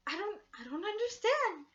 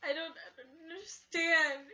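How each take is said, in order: First: High, loud baffled cry; high pleading confusion; confused wail. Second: High, loud tearful wail; a crying repeat of the confused line. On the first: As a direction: wail it out in disbelief. Retelling her confused upset reaction. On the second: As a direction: sob the words out. Same line, now crying. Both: Retold or imitated.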